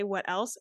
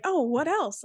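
First: Said in the usual way. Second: High imitation of a little boy's country accent on "Oh, what else?". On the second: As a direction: quote the little boy's country twang, pitched way up. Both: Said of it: "we say it in that little boy's accent".

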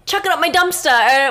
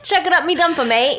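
First: Mock surfer voice, higher and louder; loud misquote in a surfer's voice; Surfer Boy. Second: Higher, louder mock Australian accent; Surfer Boy. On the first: Host tries recalling a surfer's saying in a mock surfer voice. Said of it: "Surfer Boy said". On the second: Host quotes the surfer correctly in a mock Australian accent. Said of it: "he said in Australia".

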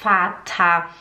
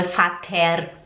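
First: Vater with a German f sound; right Vater. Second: Vater with a Portuguese v and r; wrong Vater. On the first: (Vater correto, em alemão) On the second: (Vater errado, à brasileira) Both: Shown as a demonstration. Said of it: "não é Vater".

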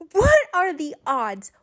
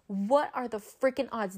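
First: Higher-pitched exclamation of disbelief; incredulous outcry. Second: Much softer, back at normal pitch; muted disbelief. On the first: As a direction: cry it out, stunned by the coincidence. Exclaiming over the coincidence. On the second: Repeats it, dropping the voice. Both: Retold or imitated.

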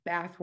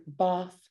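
First: "bath" with a short flat a as in cat; American "bath", short a. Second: "bath" with a long open ah, like bahth; British broad a. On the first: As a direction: say "bath" like pæθ, front flat vowel. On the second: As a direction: say "bath" as pɑθ, back open vowel. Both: Shown as a demonstration. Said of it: "there's bath words".

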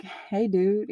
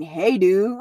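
First: Breezy, offhand hello as if nothing happened; overly casual greeting. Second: Disbelieving repeat of "Hey, dude" with a rising question; incredulous echo. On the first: Walking back in after crying, greeting him with breezy calm. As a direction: act like nothing is wrong. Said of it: "Like, casual?". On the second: The boyfriend repeating her casual greeting, incredulous. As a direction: throw her words back in disbelief. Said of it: "What the fuck do you mean". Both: Retold or imitated.

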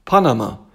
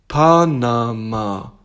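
First: Said in the usual way. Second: PANAMA loud and very slow, each syllable drawn out. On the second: Acted. Bear spells out Panama for tiger, drawn-out syllables. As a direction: stretch Panama into Pa-na-ma, loudly.

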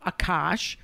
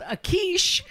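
First: Said in the usual way. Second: "Akish" with a long ee in the second syllable; "Akish", stressed on a drawn-out "keesh"; mispronounced name. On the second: Retold or imitated. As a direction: say "Akish" to end like quiche. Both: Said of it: "who by accident I called Akish".

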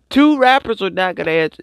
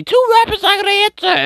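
First: Said in the usual way. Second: Much higher and fast, disbelieving; incredulous squeal. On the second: Real, not acted. Incredulous retelling of interview.

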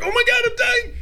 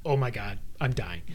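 First: High-pitched, frantic cry; mock panic. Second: Low, quiet, subdued aside; understated retelling. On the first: Climber retelling a missed grab at the top, high mock panic. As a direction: squeal it in hammed-up terror. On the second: Retold or imitated. Climber recalling the one scare, low and understated. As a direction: drop low and soft, no panic.

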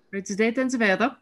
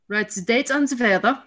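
First: Lighter Austrian teacher voice; Austrian accent. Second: Put-on German-accented teacher, raised and bright; Austrian accent. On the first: Retold or imitated. German teacher repeating to the class in Austrian accent. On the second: German teacher calling the class to order in Austrian accent. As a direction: bark it like a strict Austrian teacher. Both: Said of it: "I think I can do an attempt at this accent".

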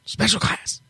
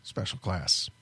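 First: Breathy whisper of Special class. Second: Deep firm voice; low awards-show announcer. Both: Shown as a demonstration. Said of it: "announcer voice".

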